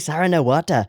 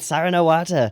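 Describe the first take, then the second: First: It is said in the speaker's plain accent. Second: It is said in an Irish accent.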